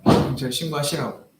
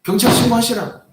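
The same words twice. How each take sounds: First: Said in the usual way. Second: Much higher, louder retold yell; shouting. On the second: Pastor daring the old man to call the police, shouting. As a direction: throw the dare at him. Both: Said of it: "싸움이 나요".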